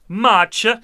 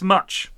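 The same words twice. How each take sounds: First: An extra vowel is added after the final consonant. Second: The word ends on its final consonant, no vowel. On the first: The speaker calls it wrong. "Why are you adding some vowels on there?" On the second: The speaker calls it right. "No, it's much"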